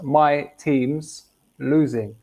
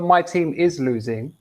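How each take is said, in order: First: Team and is are joined into one syllable. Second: The words team and is are said separately. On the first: "just my team's losing... It's just quicker" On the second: "They not that my team is losing"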